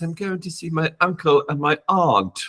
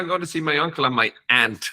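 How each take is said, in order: First: It is said in a British accent. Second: It is said in an Irish accent.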